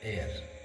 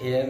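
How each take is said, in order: First: The word begins with a silent h. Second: The word begins with a sounded h. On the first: The speaker calls it right. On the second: The speaker calls it wrong.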